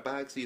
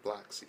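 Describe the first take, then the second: First: Said in the usual way. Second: "bloxy", boxy with an L after the B; added L sound. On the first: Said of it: "it's not boxy". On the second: Shown as a demonstration. Explaining the Humvee's look, "bloxy" with an added L. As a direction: say "bloxy" with a BL start. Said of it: "it's, like, bloxy".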